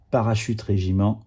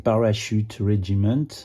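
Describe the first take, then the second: First: It is pronounced the French way. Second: It is pronounced the English way.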